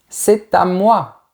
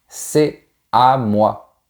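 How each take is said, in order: First: The t sound links c'est to à. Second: No t sound links c'est to à. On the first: "la liaison que j'ai faite quand j'ai dit c'est à moi" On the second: "Tu peux aussi dire c'est à moi. C'est encore plus naturel et décontracté"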